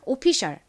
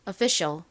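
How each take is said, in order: First: It is said with a Korean-style pronunciation. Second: It is said with an American pronunciation. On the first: "한국식입니다" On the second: "이번엔 미국식 원어 발음으로 해볼까요?"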